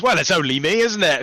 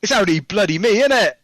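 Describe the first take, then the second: First: Posh Melchett line. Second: Put-on higher, louder Cockney accent on the line; Cockney version. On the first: Retold or imitated. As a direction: deliver it like a pompous British general. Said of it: "I rewrote the dialogue as General Melchett". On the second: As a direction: say it like a cheeky Cockney lad. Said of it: "which was in Cockney".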